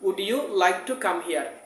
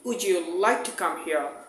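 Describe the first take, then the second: First: The d and y sounds stay separate. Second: The d and y blend into a j sound. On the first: "আমরা আগে বলতাম" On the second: "সেটা আমরা এখন কি বলবো?"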